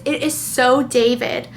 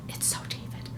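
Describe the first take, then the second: First: Said in the usual way. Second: Breathy aside whisper. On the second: Real, not acted. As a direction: whisper it to yourself. Repeats in whisper.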